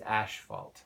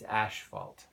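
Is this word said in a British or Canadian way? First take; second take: Canadian; Canadian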